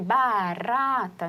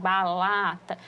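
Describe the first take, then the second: First: The middle consonant is an R sound. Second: The middle consonant is an L sound. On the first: The speaker calls it right. "o último som do r, de barata" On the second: The speaker calls it wrong. "que a gente chama do cebolinha, para o balata"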